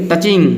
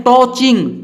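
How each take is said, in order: First: टचिंग with a short uh, "ta-ching"; correct pronunciation. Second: टॉचिंग with a round o, "to-ching"; wrong pronunciation. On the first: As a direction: keep the first vowel of टचिंग short and unrounded. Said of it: "इसको पढ़ेंगे". (टचिंग, छोटे "अ" से) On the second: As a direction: round the first vowel of टॉचिंग to o. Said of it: "टॉचिंग नहीं पढ़ना है". (टॉचिंग, गलत गोल "ऑ" से) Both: Shown as a demonstration.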